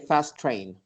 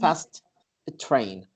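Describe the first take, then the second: First: The two words are linked smoothly together. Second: The two words are said more separately. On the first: The speaker calls it right. "So we say fast train" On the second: The speaker calls it wrong.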